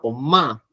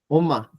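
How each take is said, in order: First: The m sound is held and clearly nasal. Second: The m sound is short and barely nasal. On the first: It means mom. "Con la M nasal" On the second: It expresses surprise. "sin la M nasal"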